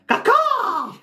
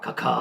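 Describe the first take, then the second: First: It is said an octave higher. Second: It is said at a lower pitch.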